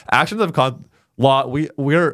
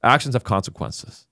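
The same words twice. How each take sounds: First: Put-on Texas accent. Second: Lightly put-on Texas accent. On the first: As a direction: act the plain-talking Texan. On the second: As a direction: say it like a stern Texan, lightly. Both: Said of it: "so I'm gonna talk like a Texan".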